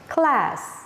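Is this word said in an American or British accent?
American. American accent, with the short vowel as in cat.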